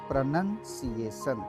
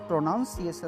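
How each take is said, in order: First: The second syllable sounds like 'nun'. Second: The second syllable sounds like 'noun'. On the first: The speaker calls it right. "इसको बोलेंगे प्रोनंसिएशन" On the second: The speaker calls it wrong. "ये प्रोनाउंसिएशन नहीं है"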